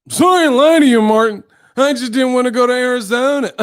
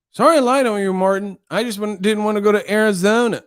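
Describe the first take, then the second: First: Loud, high exaggerated kid mimicry; mocking the boy. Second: Put-on high little-boy voice. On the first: Martin mocking the boy's apology, loud high mimicry. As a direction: whine it back high, breaking into laughter. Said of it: "he would mock the people's voices". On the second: Boy confessing to Martin about Arizona, high child voice. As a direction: apologize in a high childish pitch. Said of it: "that little boy with the ears".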